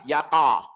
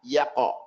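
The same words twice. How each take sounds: First: The q is followed by an a vowel. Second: The q ends in a light bounce without vowel. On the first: The speaker calls it wrong. "not separate to a fatha" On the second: The speaker calls it right. "Just that they separate"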